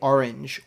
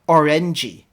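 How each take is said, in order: First: The word ends without an added vowel. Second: The word ends with an added vowel sound. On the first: "Koreans won't just say orange or page" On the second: "they like to pronounce that e at the end"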